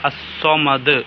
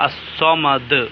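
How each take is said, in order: First: The word ends on a clearly bounced d. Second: The word ends on a clearly bounced d.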